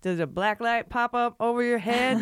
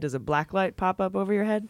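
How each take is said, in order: First: It is said in an imitation of another comedian. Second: It is said in the speaker's ordinary voice.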